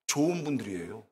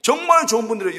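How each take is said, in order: First: Soft answer. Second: Louder, with 정말 stressed and falling; emphatic. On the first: Preacher answering his own question about newcomers, soft and low. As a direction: lower and softer, a gentle rise. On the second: Preacher assuring the newcomers they are good people, emphatic. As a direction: declare 정말 with full conviction. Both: Shown as a demonstration.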